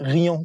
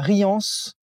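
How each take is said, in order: First: The final s sound is left silent. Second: The final s sound is pronounced. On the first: The speaker calls it wrong. "des fois, j'oublie le S" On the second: The speaker calls it right. "j'ai bien prononcé cette fois"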